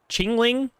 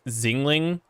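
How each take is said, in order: First: The name begins with a ch sound. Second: The name begins with a z sound. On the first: "I thought it was a C H sound, so then I said chingling" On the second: "first I tried to say zingling, like, or like X-ray, like that kind of like English pronunciation, which I know is like super wrong"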